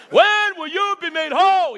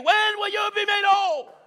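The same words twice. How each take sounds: First: Drawn-out, louder preacher-father voice with a laugh; hint of his old father asking slowly; imitating his daddy. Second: Higher, drawn-out calling question; enthusiastic preacher version. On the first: Preacher imitating his father's question to the church. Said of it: "I'm gonna say it like my daddy used to say it". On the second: Retold or imitated. Preacher voicing Daniel's question to the congregation. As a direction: ask it with his own fire. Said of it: "he may not say it like I say it".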